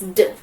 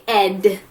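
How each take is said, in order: First: The ending is a bare d sound. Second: The ending is a full syllable, ed. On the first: The speaker calls it right. "It makes D" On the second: The speaker calls it wrong. "You don't say ed"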